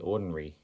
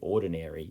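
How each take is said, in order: First: The vowel before r is a reduced schwa. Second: The vowel before r sounds like air. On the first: The speaker calls it wrong. "you might hear some people say ordinary" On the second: The speaker calls it right. "if we say the word properly, ordinary, you'll hear this air"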